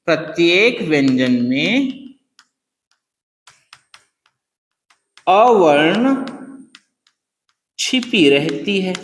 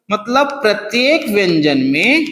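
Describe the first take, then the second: First: Slow, lower, word by word; slow dictation. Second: Said in the usual way. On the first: Shown as a demonstration. Teacher dictating the line for students to write, slowly. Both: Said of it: "हमको ऐसे लिख दिया".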